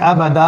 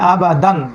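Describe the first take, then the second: First: The word ends with a drawn-out vowel. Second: The word ends with an n sound. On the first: The speaker calls it right. "এক আলিফ টেনে পড়তে পারি, আবাদা পড়তে পারি" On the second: The speaker calls it wrong. "আবাদান এটা না পড়ে"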